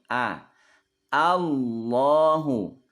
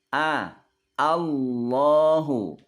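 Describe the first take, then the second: No difference in how they are said.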